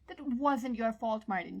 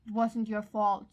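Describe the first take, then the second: First: Slow, gentle plea leaning on wasn't; pleading. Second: Slow and firmer, louder, stress on wasn't; insisting. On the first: John comforting guilty Martin, a slow gentle plea. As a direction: soothe him, slowly begging him to believe it. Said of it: "John pleaded". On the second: John firmly insisting to Martin, louder and slow. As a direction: plant each word, refusing to let him argue. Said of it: "John insisted". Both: Acted.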